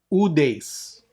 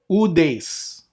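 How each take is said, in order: Both takes have the same delivery.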